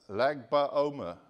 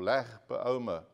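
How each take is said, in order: First: "Lag" said with a hard g; slow, loud "Lag BaOmer", hard g; first pronunciation. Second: "Lag" ending in a throaty ch sound; guttural ending on "Lag"; alternative pronunciation. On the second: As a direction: say "Lag BaOmer" with Lag as "Lakh". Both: Shown as a demonstration. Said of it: "Or Lag BaOmer".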